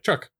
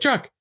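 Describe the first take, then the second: First: The name is said quietly and casually. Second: The name is yelled loudly in alarm.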